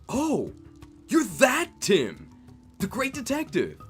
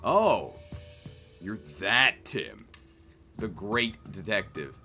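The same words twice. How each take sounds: First: The speaker sounds genuinely impressed. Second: The speaker sounds unimpressed and sarcastic.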